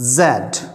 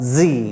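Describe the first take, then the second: First: The letter is said as zed. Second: The letter is said as zee. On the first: "कैसे बोला जाएगा ये" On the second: "American में, इसको बोला जाता है जी"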